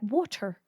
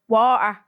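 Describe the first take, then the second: First: The middle T sound is clearly pronounced. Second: The middle T sound is dropped or softened. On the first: "Pronounce your T's" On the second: "I hate the way you say water"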